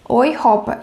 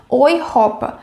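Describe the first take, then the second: The two takes are said the same way.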